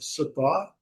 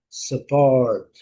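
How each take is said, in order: First: It is said in a British accent, without R. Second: It is said in an American accent, with R.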